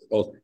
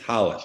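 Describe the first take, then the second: First: The name begins with an English R sound. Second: The name begins with an H sound. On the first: The speaker calls it wrong. "which is R O L L S" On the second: The speaker calls it right. "It's actually pronounced in Brazil Halish"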